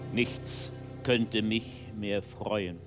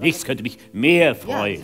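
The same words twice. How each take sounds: First: The line is said in a neutral way. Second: The line is said positively, leaning on mehr.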